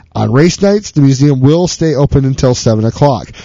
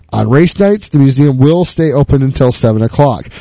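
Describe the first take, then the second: The two takes are said the same way.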